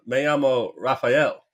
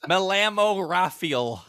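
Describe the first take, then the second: First: Put-on slow American-accented Spanish with a laugh in it; white-guy Spanish accent. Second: High, very slow, hammed-up American-accented Spanish; exaggerated white-guy Spanish. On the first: Cruz posing as a local in Mexico, American-accented Spanish. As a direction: introduce yourself in slow gringo Spanish. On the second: Cruz overdoing his disguise in Mexico, exaggerated American-accented Spanish. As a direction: stretch the Spanish out in a thick gringo accent, half laughing. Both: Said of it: "he still sounds like a white guy speaking Spanish".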